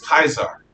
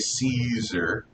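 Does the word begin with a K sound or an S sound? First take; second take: K sound; S sound. First: The word begins with a hard K sound. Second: The word begins with a soft S sound. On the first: The speaker calls it right. "They had a hard C. It was Kaiser" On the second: The speaker calls it wrong. "they didn't say Caesar"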